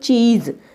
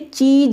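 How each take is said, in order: First: The word ends with a z sound. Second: The word ends with a plain j sound. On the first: The speaker calls it right. "हम पढ़ेंगे इसको चीज" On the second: The speaker calls it wrong. "इसे चीज नहीं पढ़ेंगे"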